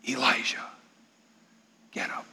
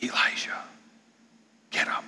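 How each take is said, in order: First: Soft, hushed calling of a name; God's soft whisper. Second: Breathy unvoiced whisper; God whispering to Elijah. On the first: Acted. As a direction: gently wake him with a hush. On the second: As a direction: whisper it right into his ear. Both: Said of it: "The sound of a gentle whisper".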